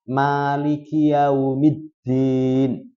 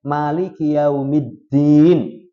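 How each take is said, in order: First: The first vowel is held long. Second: The first vowel is kept short. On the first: It means the owner. "Boleh dibaca panjang, ma" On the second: It means the ruler. "Boleh dibaca pendek"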